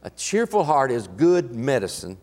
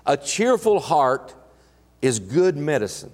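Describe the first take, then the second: First: Said in the usual way. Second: Slow, weighty reading of the verse; measured reverent scripture read. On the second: Acted. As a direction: lay each word down deliberately.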